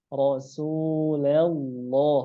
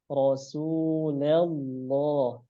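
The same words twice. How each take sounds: The two takes are said the same way.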